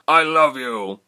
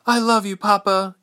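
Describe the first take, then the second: First: Loud, raised father's farewell shout; Jonan roaring. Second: Very high, loud daughter's voice; Ilse, farewell. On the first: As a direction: shout love across the fray. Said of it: "he roared in a voice". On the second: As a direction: answer your father in a high, urgent voice. Daughter answers father's farewell. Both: A narrator's reading.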